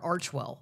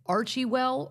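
First: The name has no 'ee' sound after 'Arch'. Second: The name has an 'ee' sound after 'Arch'.

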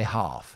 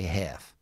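First: The word is said with a long 'ah' vowel, in a British accent. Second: The word is said with a short flat 'a' vowel, in an American accent. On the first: "I say half" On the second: "they say half"

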